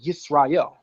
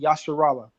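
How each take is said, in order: First: The middle consonant is an 's' sound. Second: The middle consonant is a 'sh' sound. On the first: The speaker calls it right. "we pronounce it with a sin" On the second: The speaker calls it wrong. "it'll never say Yasharallah"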